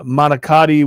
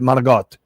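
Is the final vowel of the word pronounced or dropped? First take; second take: pronounced; dropped. First: The word ends with a full final vowel. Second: The final vowel is dropped, ending in a consonant.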